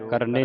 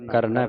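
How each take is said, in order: First: ਕਰਨੇ ending in a closed e; wrong ending. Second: ਕਰਨੈ ending in open "ai"; double-lanv ending. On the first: Teacher showing the misreading, ਕਰਨੇ with e ending. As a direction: say ਕਰਨੇ with a single-lanv "e". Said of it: "ਨਹੀਂ ਪੜਨਾ". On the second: Teacher correcting the reading, ਕਰਨੈ with open ai ending. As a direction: end ਕਰਨੈ on ai, not e. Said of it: "ਦਲਾਵਾਂ ਲੱਗੀਆਂ". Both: Shown as a demonstration.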